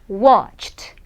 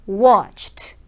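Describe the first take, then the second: No difference in how they are said.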